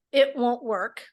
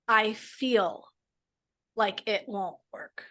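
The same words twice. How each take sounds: First: Said in the usual way. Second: Softer and slow, easing the words; a slow, softer, more tentative take; softer, gentler phrasing. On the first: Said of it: "If we just change the phrase from". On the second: Shown as a demonstration. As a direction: let it land gently, slowly. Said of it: "notice the difference in your body".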